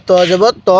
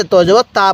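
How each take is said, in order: First: ত জবর ত ending on a rounded "to"; correct heavy "to". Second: ত জবর তা ending on an open "ta"; the mistaken spelling, last syllable an open "a"; wrong thin "ta". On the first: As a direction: spell out ত জবর ত with a full-mouthed "o" on the last ত. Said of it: "যদি ত জবর তা পড়ে". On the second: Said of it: "তাহলে পড়াটা সহি শুদ্ধ হবে না". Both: Shown as a demonstration.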